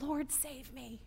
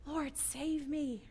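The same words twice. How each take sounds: First: Crying out for help. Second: Pleading cry. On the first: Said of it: "he cries out". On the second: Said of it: "We know that cry". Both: Retold or imitated.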